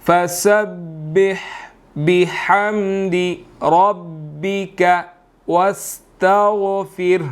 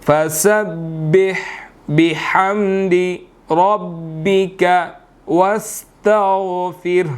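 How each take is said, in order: Both takes have the same delivery.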